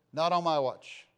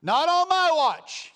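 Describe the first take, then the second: First: Said in the usual way. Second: Much higher and louder, slow; defiant shout. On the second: Acted. Preacher shouting defiance at the congregation.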